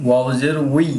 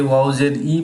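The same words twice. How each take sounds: First: "ওয়াও জের উই" with the glide "উই", u sliding into i; correct pronunciation. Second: "ওয়াও জের ই" ending in a plain "ই" with no w glide; common mispronunciation. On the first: Teacher correcting students, clear gliding "উই" ending. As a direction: end on a clear "উই", rising slightly. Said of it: "আপনারা ঠিক করে নেবেন". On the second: Teacher showing students the common mistake, plain "ই" ending. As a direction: say "ই" flat, without the "উই" glide. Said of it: "এই হরফটা অনেকে ওয়াও জের ই পড়ে". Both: Shown as a demonstration.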